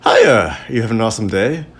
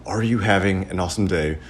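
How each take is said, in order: First: Chirpy upward lilt to the end; counter girl's greeting. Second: Deliberate requote, falling at the end; understated, lower echo of the server; pointed repeat. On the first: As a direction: lightly mimic a perky server's greeting. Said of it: "the girl behind the co-, counter said". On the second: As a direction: repeat the greeting drily, without the lilt. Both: Acted.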